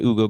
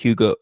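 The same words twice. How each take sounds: First: The name starts with no H sound. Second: The name starts with an H sound. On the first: The speaker calls it right. "There's no H. You don't pronounce H" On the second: The speaker calls it wrong. "excuse me"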